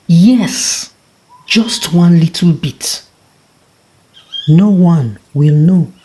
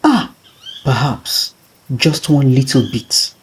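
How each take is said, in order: First: Higher and louder, giving in to greed; the tortoise gleefully deciding; a lightly voiced trickster sure of himself; eager tortoise. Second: Lightly voiced tortoise weighing a small theft; a hint of a tempted trickster. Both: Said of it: "He chuckled to himself".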